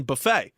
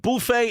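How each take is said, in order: First: Buffet with a short "buh" first syllable; Americanized buh-FAY. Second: Buffet with a "boo" first syllable; French-style boo-FAY. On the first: Co-host contrasting the Americanized form, buffet as "buh-FAY". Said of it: "buffet is, like, Americanized". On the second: Co-host arguing which is more French, buffet as "boo-FAY". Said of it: "buffet is more French than buffet". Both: Shown as a demonstration.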